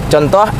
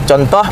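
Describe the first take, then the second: No difference in how they are said.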